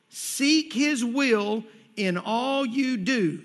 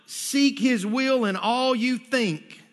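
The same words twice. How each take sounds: First: Slow, deliberate line landing on "do"; stress on "do". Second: Slow line, landing on "think" as the wrong word; contrastive stress on "think". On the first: Preacher teaching the scripture's key word, stress on "do". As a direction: draw out the phrase and weight the final "do". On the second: Preacher correcting a misreading of scripture, stress on "think". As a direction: draw out the phrase and set up "think" against the real word. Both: Shown as a demonstration. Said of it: "the key word there is do".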